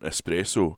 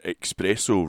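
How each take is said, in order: First: The word has an s sound after the e. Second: The word has a ks sound after the e.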